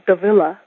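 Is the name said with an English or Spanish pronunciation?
English. The name is said with an English pronunciation. The speaker calls it wrong. "In English, sometimes people say my last name"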